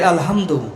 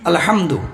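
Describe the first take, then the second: First: The h sound is light and weakly breathed. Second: The h sound is heavy and strongly breathed. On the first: The speaker calls it wrong. "এই হাটাকে যখন আমরা হালকা করে উচ্চারণ করি" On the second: The speaker calls it right. "একটা হা আছে না?"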